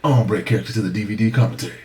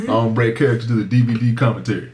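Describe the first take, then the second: First: Brisk movie-line imitation; lightly voiced film character, fast; movie character's delivery. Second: Lightly voiced thug; a hint of tough street talk; thug-like delivery. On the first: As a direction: quote the character properly, quickly. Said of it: "That's how he said it". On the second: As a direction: toss the movie line off like a thug. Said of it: "like a thug".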